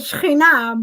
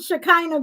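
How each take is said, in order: First: The name is said with Hebrew pronunciation. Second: The name is said with English pronunciation. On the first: "if you want me to say it in Hebrew" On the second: "be a lot easier for you"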